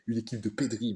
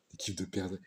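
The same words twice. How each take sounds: First: "pédris" said pedʁi with no r after the e; corrected name. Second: "perdrix" said with an r, like the bird; wrong word. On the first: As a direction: say "pédris" as pe-dri, like Pedri. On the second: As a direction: say "perdrix" as pɛʁdʁi, r after the e. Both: Shown as a demonstration.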